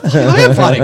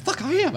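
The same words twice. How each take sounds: First: Loud retold inner protest; big mock-frustrated outburst; exasperated inner voice. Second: Very high strangled squeak; pinched, high mock choking; imitated choked voice. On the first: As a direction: blurt it much louder, as if to yourself. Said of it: "I'm saying that to myself". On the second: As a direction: act out barely able to talk. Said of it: "I couldn't talk".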